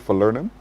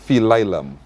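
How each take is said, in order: First: It is said the speaker's usual, non-Saint Lucian way. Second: It is said the way people in Saint Lucia say it. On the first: "Do you know that in Saint Lucia they don't say falernum?" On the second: "What do they say? Phililum"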